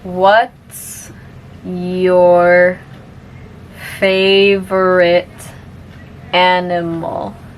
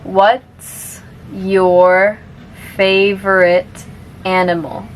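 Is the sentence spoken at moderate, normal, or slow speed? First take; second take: slow; moderate. First: The sentence is spoken very slowly. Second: The sentence is spoken a bit faster. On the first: "I'll say it slowly first" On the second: "a little bit faster now"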